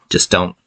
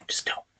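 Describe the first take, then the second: First: Said in the usual way. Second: Mock warning whisper. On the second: Vlogger warning film haters, in a mock menacing whisper.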